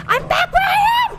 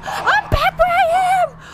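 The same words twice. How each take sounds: First: High despairing shout; panicking gamer. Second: Slower high wailing shout; panicking gamer. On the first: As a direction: yell in frantic disbelief. Sent back in the game. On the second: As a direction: drag it out in despair. Repeats the same cry. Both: Real, not acted.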